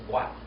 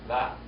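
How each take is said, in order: First: The word begins with a W sound. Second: The word begins with a V sound. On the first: This is the oldest way to say it. "the oldest pronunciation of this letter is with a W, not a V" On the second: This is the modern way to say it. "the modern Hebrew will call it what"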